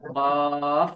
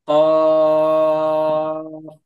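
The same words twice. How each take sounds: First: The word ends with a strong push of air. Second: The word ends without a push of air. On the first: The speaker calls it wrong. "লাস্টের দিকে এরকম ফো মানে একটা ধাক্কা দিচ্ছেন" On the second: The speaker calls it right. "লাস্টে ধাক্কা দেওয়া যাবে না।"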